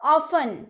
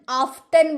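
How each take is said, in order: First: No t sound is pronounced in the middle. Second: A t sound is pronounced in the middle. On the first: The speaker calls it right. "ऑफन यानी कि अक्सर" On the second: The speaker calls it wrong. "ऑफ्टन बोलते हैं क्या? ऑफ्टन नहीं ना"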